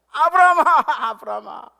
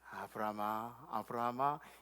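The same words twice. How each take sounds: First: It is called quickly, with urgency. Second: It is called slowly, without hurry.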